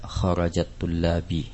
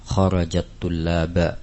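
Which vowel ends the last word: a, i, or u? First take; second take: i; a. First: The last word ends with an i vowel. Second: The last word ends with an a vowel. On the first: "Tidak boleh dibaca dengan fathah ataupun kasrah" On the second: "Tidak boleh dibaca dengan fathah ataupun kasrah"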